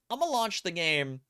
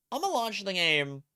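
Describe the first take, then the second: No difference in how they are said.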